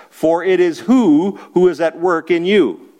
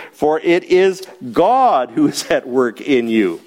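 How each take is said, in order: First: Who asked as a blank to fill, stressed, falling; quiz question. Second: God hit hard as the answer, falling; stress on God. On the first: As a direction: leave who as a question for the class. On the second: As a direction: land God as the emphatic first word. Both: Shown as a demonstration. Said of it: "God is the emphatic first word".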